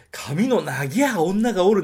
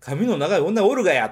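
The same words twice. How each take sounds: First: 「髪の長い女がおる」 in the stiff movie-style Nagoya dialect, slow, higher and louder; mock the film's fake Nagoya dialect; unconvincing film Nagoya dialect. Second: 「髪の長い女おるがや」 in natural Nagoya dialect, higher and louder, falling on おるがや; real Nagoya dialect. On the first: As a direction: read it like a badly coached actor faking Nagoya dialect, ending on plain がおる. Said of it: "なんて絶対言わない". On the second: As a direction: say it the way a Nagoya local really would, with the がや ending. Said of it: "そっちの方がリアルだと僕は思う". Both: Shown as a demonstration.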